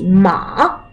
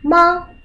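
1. Тон опускается низко, а потом поднимается. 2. Тон остаётся высоким и ровным. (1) "третий ма" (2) "Первый ма"

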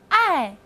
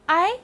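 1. 音高从高处急速降到低处。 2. 音高从中音升到高音。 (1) "四声，爱" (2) "二声I"

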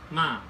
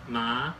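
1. 音高从高处急剧下降。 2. 音高从中到高上升。

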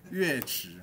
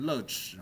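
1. 第一个音节读作yuè。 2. 第一个音节读作lè。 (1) "这是破音字，乐池" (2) "不要念成乐池"

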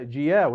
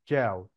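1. يأتي صوت انزلاقي شبيه بالياء بعد الحرف الأول. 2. لا يأتي أي صوت انزلاقي بعد الحرف الأول. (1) "ما تنطقهاش زي ما مكتوبه بالعربي كده" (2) "لا هي جاو"

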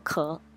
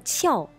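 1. 这个音节读 ké，是升调。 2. 这个音节读 qiào，是降调。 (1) "另外一个读音读壳" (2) "第一个读音读翘"

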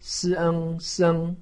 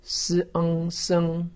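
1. 音高保持高而平。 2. 音高保持高而平。

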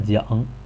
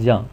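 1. 这个音节读上声。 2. 这个音节读去声。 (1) "读上声的讲" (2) "才读去声降"

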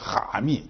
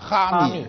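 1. 第一个字是低降升调。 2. 第一个字是高平调。

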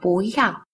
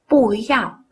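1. Âm tiết đầu đọc giọng lên. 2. Âm tiết đầu đọc giọng xuống. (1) "đọc thành bú yào" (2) "Từ bù vốn là thanh bốn"

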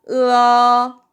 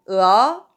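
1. 1성으로 발음합니다. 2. 2성으로 발음합니다. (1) "1성부터 시작할게요" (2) "2성은"

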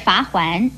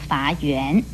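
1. 第二个音节读作 huan。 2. 第二个音节读作 yuan。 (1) "而罚环也不要念成" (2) "不要念成罚圆"

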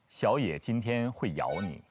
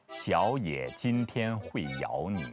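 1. 这句话语速正常。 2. 这句话语速稍微慢一点。

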